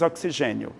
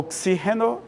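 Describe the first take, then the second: First: The stress falls on the syllable 'ge'. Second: The stress falls on the syllable 'xi'. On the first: This is the Portuguese pronunciation. "é G" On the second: This is the Spanish pronunciation. "A sílaba tônica é xi"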